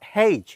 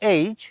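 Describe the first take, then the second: First: It begins with an h sound. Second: It begins directly with a vowel. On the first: The speaker calls it wrong. "Not হেইচ" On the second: The speaker calls it right. "এটাকে আমরা বলবো এইচ"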